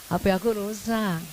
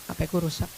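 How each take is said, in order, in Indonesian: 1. Diucapkan dengan suara manja, merengek, dan melengking. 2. Diucapkan datar dan mandiri, tanpa merengek.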